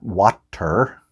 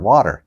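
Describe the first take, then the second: First: The middle consonant is a clear T. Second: The middle consonant sounds like a soft D. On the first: The speaker calls it wrong. "not water" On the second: The speaker calls it right. "with a D"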